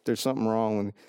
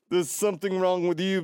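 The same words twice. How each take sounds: First: Said in the usual way. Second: Higher-pitched snooty put-on voice; stupid voice. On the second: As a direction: play a silly, superior snob. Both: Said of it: "for me to do that stupid voice".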